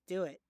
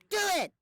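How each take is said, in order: First: It is said calmly at normal volume. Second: It is screamed loudly and intensely.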